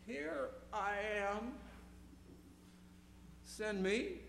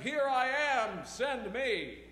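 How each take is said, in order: First: It is said shakily and with hesitation. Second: It is said confidently and with enthusiasm. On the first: The speaker is afraid but agrees anyway. "with a shake in the voice and trepidation in his heart" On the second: The speaker is eager to go. "read with confidence and enthusiasm"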